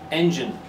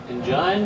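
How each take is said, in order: First: The stress is on the first syllable. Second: The stress is on the second syllable. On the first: The speaker calls it right. "It's the first syllable" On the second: The speaker calls it wrong. "Nah, doesn't sound right"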